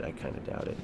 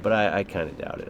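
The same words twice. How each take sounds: First: Breathy whispered aside. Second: Said in the usual way. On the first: Shown as a demonstration. Streamer whispers his own line back to viewers. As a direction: whisper it under your breath like a secret.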